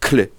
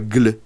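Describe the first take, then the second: First: The cluster begins with a voiceless K sound. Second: The cluster begins with a voiced G sound. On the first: The speaker calls it right. "il se prononce cle" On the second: The speaker calls it wrong. "il ne se prononce pas gle"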